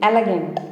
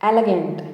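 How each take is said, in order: No difference in how they are said.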